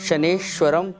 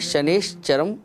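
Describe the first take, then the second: First: The middle of the word has a 'v' sound. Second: The middle of the word has a 'ch' sound. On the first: The speaker calls it wrong. "ज़्यादातर लोग शनेश्वरम pronunciation करते हैं, जो गलत है" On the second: The speaker calls it right. "यहाँ पे शनिश्चरम word है"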